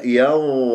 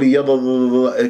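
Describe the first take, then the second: First: يض- with the heavy consonant held stable; steady za. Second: يض- with the held consonant wobbling; trembling za, wrong. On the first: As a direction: hold the za in يض- evenly. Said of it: "لازم أنطيها استقرارية". (يض- باستقرار الظاء) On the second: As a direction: let the za in يض- quiver. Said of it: "ترجف عندي الضاء". (يض- بارتجاف الظاء) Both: Shown as a demonstration.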